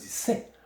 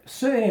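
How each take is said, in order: First: Ce and est merge into one syllable. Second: Ce and est are said as two separate syllables. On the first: The speaker calls it right. "On dit c'est. On coupe le E" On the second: The speaker calls it wrong. "Ça ne se dit pas comme ça"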